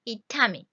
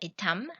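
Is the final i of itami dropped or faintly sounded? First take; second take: faint; dropped. First: A faint i vowel follows the final m. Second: The word ends on m with no final vowel. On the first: "you can put I slightly" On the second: "almost like M"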